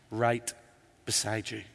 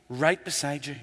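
First: Almost breathed, much softer; hushed. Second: "Right" leaned on, the rest falling away; stress on RIGHT. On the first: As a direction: let it fall to a hush. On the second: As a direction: punch the word "Right" in "Right beside you". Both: Shown as a demonstration.

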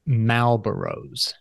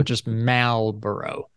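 First: Malboros said with no R, "Mal-bo-ros", slowly; pronunciation. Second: Malboro said with no R, "Mal-bo-ro", slowly; pronunciation. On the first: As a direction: say Malboros as Mal not Marl. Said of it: "not Marlboro, just Malboro". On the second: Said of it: "not Marlboro". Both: Shown as a demonstration.

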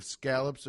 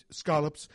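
First: "scallops" with the a of "cat"; first vowel of "scallops" as in "pal"; short-a pronunciation. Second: "scallops" with an "ah" in front; first vowel of "scallops" as in "doll"; broad-vowel pronunciation. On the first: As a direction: say "scallops" as SKAL-ups. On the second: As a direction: say "scallops" as SKOL-ups. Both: Shown as a demonstration. Gives two pronunciations of scallops.

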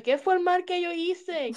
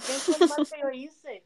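First: Slow, high mock-innocent whine; meme quote. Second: Slower mock-innocent echo, a bit less high; meme quote repeated. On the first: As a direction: play dumb like the meme, stretched out slow. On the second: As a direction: repeat the meme line, drawn out. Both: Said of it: "como dice el meme".

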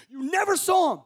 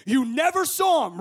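First: Never yelled high and loud, falling; "You never saw him" with "never" shouted; shouted, stress on never. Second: Saw hit long and loud, falling; "You never saw him" with "saw" punched and dropped; stress on saw. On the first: Persecutor to a martyr, never shouted. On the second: Persecutor to a martyr, "saw" stressed loud. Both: Retold or imitated.

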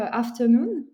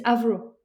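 First: Afternoon said in full, af-ter-noon, every syllable clear; careful schoolbook afternoon; proper English. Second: Avro, afternoon swallowed into two syllables, AV-ro; lazy Aussie avro; Australian slurred. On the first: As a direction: spell out afternoon the textbook way. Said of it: "au lieu de dire". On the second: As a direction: chop afternoon down to avro like a farmhand. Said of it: "ils disent avro". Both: Shown as a demonstration.

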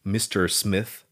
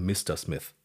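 First: Mister Smith slowly, with a full English R in Mister; slow English Mister Smith, R clearly sounded. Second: Mister Smith with the R turned into an "a"; Germanised, no R. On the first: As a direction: draw out Mister Smith with an American-style R. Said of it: "dieses R mögen die Deutschen". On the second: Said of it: "Deswegen sagt man". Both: Shown as a demonstration.

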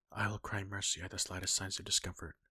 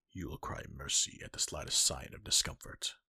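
First: Said in the usual way. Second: Lower, commanding Kratos. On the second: A narrator's reading. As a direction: dictate the rule to her. Kratos dictates, she repeats.

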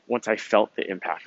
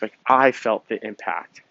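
First: Said in the usual way. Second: Slowed "I felt the impact" with weight on "I"; stress on "I felt the impact". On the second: Shown as a demonstration. Telling listeners how the tactic hit home, slow and stressed. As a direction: lean on "I" and slow down through "the impact".

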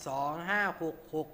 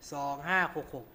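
The two takes are said the same way.

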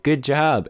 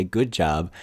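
First: Sarcastic praise. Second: Said in the usual way. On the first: Retold or imitated. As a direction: say it dripping with sarcasm. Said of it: "it sounds really sarcastic". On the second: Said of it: "unable to say "good job" sincerely".

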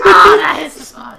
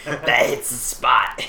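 First: Squeaky high and loud, laughing; helium voice. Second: Chain smoker voice. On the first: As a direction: chirp it like you just huffed helium. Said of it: "Now you sound like this". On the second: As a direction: drag it out like an old smoker. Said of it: "sound like a chain smoker". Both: Pretend.

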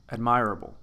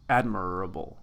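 First: Admirable as ad-MY-ruh-bul; mispronounced Admirable. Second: Admirable as AD-mur-uh-bul, lower; standard Admirable. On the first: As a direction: say Admirable with stressed, long "MY" in the middle. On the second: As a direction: say Admirable with the stress on AD. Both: Shown as a demonstration. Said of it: "Admirable makes more sense to me".

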